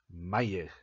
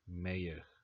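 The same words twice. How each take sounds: First: The name is said with a German accent. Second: The name is said with an English accent. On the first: "in German it would be more like Mayer" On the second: "but we're saying George Mayer"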